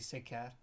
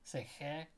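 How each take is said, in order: First: The name uses a plain English k sound. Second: The name uses a sound English lacks. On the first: The speaker calls it wrong. "So we say Seker or something like that, and that's not his name" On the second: The speaker calls it right. "his surname is like Sechet"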